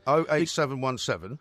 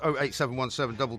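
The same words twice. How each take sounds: First: The digits are spaced out slowly. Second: The digits are run together quickly. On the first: The speaker calls it right. "Repeat that a bit more slowly" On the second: The speaker calls it wrong. "when you garble it"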